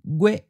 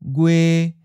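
First: The pitch is high and cut off abruptly. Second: The pitch stays level at a middle height. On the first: This is the form used in the lessons. "we'll just stick with the high stop" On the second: This is how it sounds in some other regions. "a mid flat"

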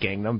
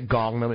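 First: It is said with an Americanized pronunciation. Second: It is said with a Korean-like pronunciation. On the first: The speaker calls it wrong. "instead of Gangnam" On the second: The speaker calls it right. "to pronounce it correctly, you say Gangnam"

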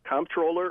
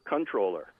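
First: The first syllable is said as comp. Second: The first syllable is said as con. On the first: It shows the listener knows the job. "during the campaign I had to say comptroller" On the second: It is the preferred pronunciation. "the preferred pronunciation is actually controller"

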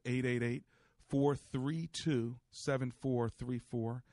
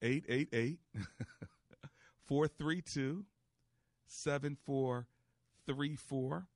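First: The number is said at a quicker pace. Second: The number is said at a slower pace.

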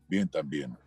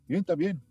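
First: It is said flat, in a monotone. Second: It is said expressively, with varied intonation.

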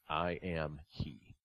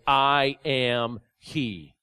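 First: It is said slowly and softly. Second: It is said with a raised voice.

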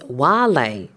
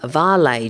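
First: The word begins with a W sound. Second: The word begins with a V sound. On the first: The speaker calls it right. "the correct pronunciation is Vale John, because it's from the Latin word vale. And in Latin, V's are pronounced W" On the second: The speaker calls it wrong. "Some people say it's Vale John"

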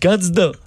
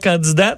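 First: The final T sound is silent. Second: The final T sound is pronounced. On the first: The speaker calls it right. "tu dis candidat" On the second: The speaker calls it wrong. "Tu dis pas candidat"

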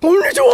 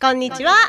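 First: It is said in a gorilla-like voice. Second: It is said in her own natural voice.

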